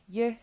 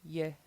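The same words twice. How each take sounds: First: The syllable is said on a high pitch. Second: The syllable is said on a low pitch. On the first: "And high tone" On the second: "So we have a low tone"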